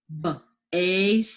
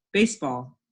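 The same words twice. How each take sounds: First: Baseball broken into b, ase, ball with gaps; sounded out. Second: Said in the usual way. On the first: Shown as a demonstration. Teacher helps pupils spell, baseball sounded out. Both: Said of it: "words we just sounded out".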